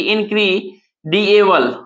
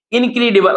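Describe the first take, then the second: First: "इनक्रीडिएबल" slowly, piece by piece; broken into syllables. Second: Said in the usual way. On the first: Shown as a demonstration. Teacher splitting the word to count, "इनक्रीडिएबल" slow and segmented. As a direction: pull "इनक्रीडिएबल" apart with a pause before the end. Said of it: "लिखते हैं तोड़ के".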